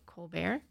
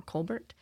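First: "Colbert" as kohl-BAIR, silent T; French-style Colbert. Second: "Colbert" as KOHL-burt, T sounded. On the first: Presenter guesses how the author's surname is said, silent-T "Colbert". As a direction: end "Colbert" on an open -bair, no T. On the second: Presenter offers the other way to say the author's surname, "Colbert" with a T. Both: Shown as a demonstration. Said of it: "she might pronounce it Colbert".

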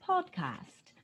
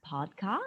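First: 'podcast,' pitched up in a hammed British voice; high, posh-sounding mock British accent. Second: A hint of British, said low and soft; low, quiet mock British accent. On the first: Hosts testing British accents, pitching the word high. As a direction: lift 'podcast,' high like a plummy Brit. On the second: Hosts testing British accents, murmuring it low. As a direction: try 'podcast,' in a murmured, lower British voice. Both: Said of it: "have you heard anybody with a British accent".

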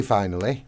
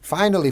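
First: Said in the usual way. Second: Higher and louder, falling hard; loud high falling "Finally" as a topic change; emphatic. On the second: Real, not acted.

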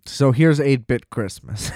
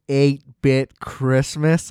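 First: Said in the usual way. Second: Very slow "Eight-bit Christmas?" drawn out with a rising sneer; disgusted. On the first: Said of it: "I don't want to say it either". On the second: Shown as a demonstration. Podcast host saying a movie title he hates, slow and sneering. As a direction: stretch "Eight-bit Christmas?" slowly, dripping contempt. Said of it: "It's really irritating to me".

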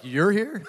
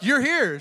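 First: Higher-pitched incredulous echo; echoed surprise. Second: High, louder exclamation of surprise; retold surprise. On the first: Retold or imitated. Ex-wife answers her ex-husband at the pearly gates, incredulous. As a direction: throw the surprise back as a question. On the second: Ex-husband meets ex-wife at the pearly gates, surprised. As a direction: act out a startled ex-husband, pitched up.

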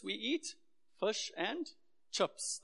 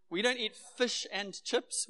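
First: "chips" said "tshhips", breathy and drawn out; Durban pronunciation. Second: Said in the usual way. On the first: Shown as a demonstration. Pastor showing how Durbanites say "chips", teasing. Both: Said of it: "the way we pronounce some words".

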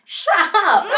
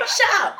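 First: High, loud, laughing dismissal; laughing shut up. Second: Higher, flat dismissive brush-off; just shut them down. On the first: To nosy followers, a laughing high shut up. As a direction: brush the critic off with a laugh. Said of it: "Then I'm like". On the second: To nosy followers, a blunt dismissive shut up. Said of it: "I'm just like". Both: Retold or imitated.

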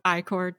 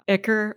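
First: "Icor" with long i and full "kor" ending; alternative pronunciation. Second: "Ichor" with short i and weak second syllable; pronunciation variant. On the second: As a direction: say "Ichor" as "ICK-er". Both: Shown as a demonstration. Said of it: "depending on how you pronounce it".

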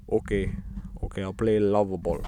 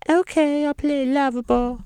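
First: Put-on unsure, half-hearted Russian accent. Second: Very high, sustained falsetto; mock pop-star voice, squeaked way up high. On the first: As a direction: agree in a vague mock Russian accent. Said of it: "I don't know [name]'s accent". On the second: Pop star agrees to play the game, in falsetto.

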